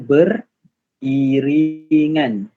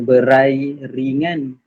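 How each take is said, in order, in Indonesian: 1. Kata ini dipisah menjadi 'ber' dan 'iringan'. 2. Kata ini dipisah menjadi 'berai' dan 'ringan'. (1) "Kita baca beriringan" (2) "jangan kita baca berai ringan"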